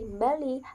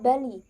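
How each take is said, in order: First: The word starts with a nasal sound before B. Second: The word starts with a plain B sound.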